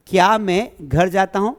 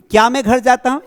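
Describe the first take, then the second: First: Said in the usual way. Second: Higher and louder quoted question; teacher asks the sample question brightly; raised question. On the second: Shown as a demonstration. Teacher reads example question to class, raised and louder. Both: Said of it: "इसको ऐसे बनाएंगे".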